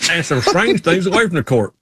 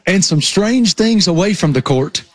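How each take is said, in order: First: Put-on his own old Southern reporter line, echoed; repeating the report. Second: Slightly raised imitation of a young Southern reporter; quoting the report. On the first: Repeating his old report line, lightly Southern reporter voice. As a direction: echo the Southern TV line, amused. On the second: Teasing co-host with his old line, mock Southern report. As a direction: quote the Southern TV line back at him. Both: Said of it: "What was the line?".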